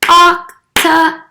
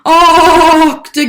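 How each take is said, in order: First: It is said in a normal voice. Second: It is said in a spooky ghost voice.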